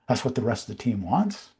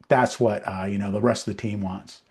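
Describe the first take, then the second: First: The voice rises at the end, like a question. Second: The voice falls at the end, like a statement.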